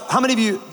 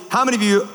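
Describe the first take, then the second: No difference in how they are said.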